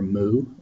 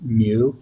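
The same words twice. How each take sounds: First: The word sounds like 'moo', with no y-glide. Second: The word sounds like 'mew', with a y-glide. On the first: "like a cow" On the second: "like a cat"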